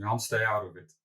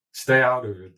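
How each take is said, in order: First: Said in the usual way. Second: Louder, firm mock yell; retold yell. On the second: CCO telling the founder to stay out, mock yelling. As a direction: imitate a colleague yelling a warning, half in earnest. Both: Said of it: "he's yelling at me".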